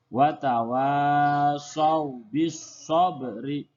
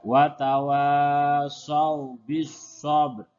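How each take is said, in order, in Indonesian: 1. Kata terakhir berakhir dengan vokal i. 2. Kata terakhir berakhir dengan konsonan. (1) "Sedangkan tulisannya wa tawasaw bis sabri" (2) "Begitu juga ketika kita membaca ayat yang ketiga"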